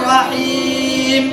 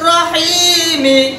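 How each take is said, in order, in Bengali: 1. শব্দটি ব্যঞ্জনধ্বনি দিয়ে শেষ হয়। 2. শব্দটি একটি হ্রস্ব স্বরধ্বনি দিয়ে শেষ হয়। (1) "দম ছাড়লে" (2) "মিম জের মি"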